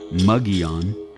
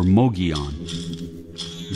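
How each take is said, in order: First: The name sounds like Mugion, with an oo vowel. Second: The name sounds like Mogion, with an oh vowel. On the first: "pronounce it either Mugion or Mogion. That is wrong also" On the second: "pronounce it either Mugion or Mogion. That is wrong also"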